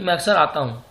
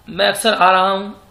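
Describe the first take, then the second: First: Said in the usual way. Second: "आ रहा" pushed louder as the wrong form; louder take stressing "आ रहा", marked wrong; the wrong sentence said with "आ रहा हूँ" pressed loud; wrong version. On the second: Shown as a demonstration. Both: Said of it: "नहीं".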